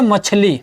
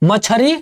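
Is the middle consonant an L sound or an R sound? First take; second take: L sound; R sound. First: The middle consonant is an L sound. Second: The middle consonant is an R sound. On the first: This is the standard Hindi form. "Hindi में बोलते हैं मछली" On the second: This is the Magahi dialect form. "Magahi बोली में बोलेंगे मछरी"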